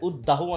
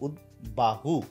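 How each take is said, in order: First: The b is dropped and the d is doubled. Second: The b sound is clearly pronounced after d. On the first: The speaker calls it wrong. "উদ্দাহু অনেকেই বলে থাকে, না এটা একদম উদ্দাহু না" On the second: The speaker calls it right. "এটা হচ্ছে উদ্বাহু"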